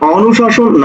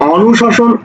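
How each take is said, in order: The two takes are said the same way.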